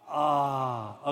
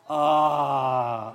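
First: It is said mildly, with little energy. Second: It is said with strong, full energy.

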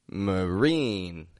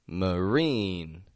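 Both takes have the same delivery.

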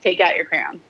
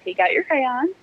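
First: Crayons is clipped short, sounding almost like crown. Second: Crayons is said carefully, in a polished presenting voice. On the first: This is casual everyday speech. "if I'm talking like a normal human being" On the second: This is a formal presenting style. "if I'm in the middle of a recording and I'm on a tutorial"

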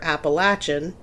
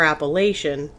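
First: It uses the Southern pronunciation. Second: It uses the northern pronunciation. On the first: The speaker is from the South. "if you're from the South" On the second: The speaker is from the Mid-Atlantic region or further north. "if you're from kind of the Mid-Atlantic region north"

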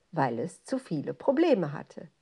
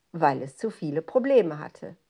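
Both takes have the same delivery.

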